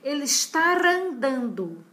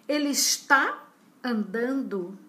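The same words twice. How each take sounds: First: An r sound links está to andando. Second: No r sound appears before andando. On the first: The speaker calls it wrong. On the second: The speaker calls it right.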